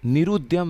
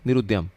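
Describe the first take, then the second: First: The vowel after r is drawn out long. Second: The vowel after r is short and quick. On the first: The speaker calls it wrong. "नहीं पढ़ना है" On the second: The speaker calls it right. "र पे छोटी ऊ की मात्रा है, तुरंत पढ़ के इसको द्य पे हमें पहुंच जाना है"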